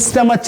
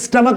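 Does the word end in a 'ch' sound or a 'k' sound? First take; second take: ch; k. First: The word ends with a 'ch' sound. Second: The word ends with a 'k' sound. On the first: The speaker calls it wrong. "स्टमच नहीं बोलेंगे" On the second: The speaker calls it right. "स्टमक बोलते हैं दोस्तों"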